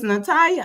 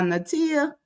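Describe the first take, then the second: First: "Natalia" pronounced na-TIE-a, middle rhymes with tie; first name variant. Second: "Natia" pronounced na-TEE-a, middle rhymes with tea; second name variant. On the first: Streamer unsure of a viewer's name, "Natalia" said na-TIE-a. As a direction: say "Natalia" with an eye-like middle vowel. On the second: Streamer trying another reading of the name, "Natia" said na-TEE-a. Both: Shown as a demonstration. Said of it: "if I be saying it right or not".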